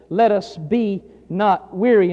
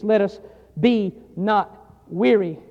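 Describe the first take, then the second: First: Slow, weighted "Let us be not weary" with the stress on "Let"; quoting scripture. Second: "Let us be not weary" even slower, with a pause after "Let us" and the weight on "weary"; quoting scripture again. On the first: Preacher quoting Galatians to the congregation, slow and weighty. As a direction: lean on "Let" and draw the verse out slowly. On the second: Preacher repeating the verse to the congregation, very slow. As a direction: stretch "weary" out slowly. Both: Shown as a demonstration. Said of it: "Notice he says".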